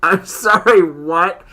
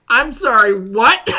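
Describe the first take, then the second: First: Disbelief. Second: High, loud incredulous what; can't believe what he just heard; shocked disbelief. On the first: Reacting to whispering-mouths story. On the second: Hearing about whispering into mouths, shocked. Reacting again, louder and higher. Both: Real, not acted.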